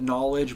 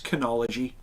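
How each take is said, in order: First: The word starts without a k sound. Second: The word starts with a k sound. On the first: The speaker calls it wrong. "that's just being lazy, not pronouncing all the letters" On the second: The speaker calls it right. "It's it's chronology"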